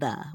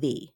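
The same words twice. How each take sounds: First: The vowel is a short schwa sound. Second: The vowel is a long E sound. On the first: This is the usual everyday way. The speaker calls it right. "most of the time we are saying" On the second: This is not how it is usually said. The speaker calls it wrong. "We are not usually saying"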